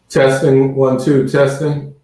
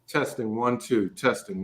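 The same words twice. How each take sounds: First: The voice sounds hollow, like in a big hall. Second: The voice sounds clear, without a hollow echo. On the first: The speaker calls it wrong. "your mic sounds hollow, like in a big hall" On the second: The speaker calls it right.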